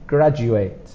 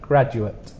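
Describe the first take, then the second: First: The final syllable is said as the verb form. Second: The final syllable is said as the noun form. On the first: It names the action of finishing a degree. "This is a verb" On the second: It names a person who has a degree. "you pronounce it a little differently. You put the sound at the end"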